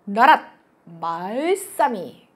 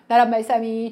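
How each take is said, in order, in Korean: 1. 높낮이를 뚜렷하게 살려 읽습니다. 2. 높낮이 없이 고르게 읽습니다. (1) "저거 성조대로 읽으면 어떻게 되는 줄 알아요? 나랏 말싸미 이렇게 읽어야 돼요. 이게 성조야" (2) "우리가 지금 나란 말싸미 등기게 달아 이러지"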